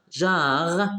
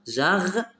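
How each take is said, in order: First: Said in the usual way. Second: "jarre" higher, broken into jar and re; split into syllables. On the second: Shown as a demonstration. Teacher showing deux syllabes, syllable by syllable. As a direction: sound out "jarre" as two beats, final re voiced separately. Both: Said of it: "deux syllabes".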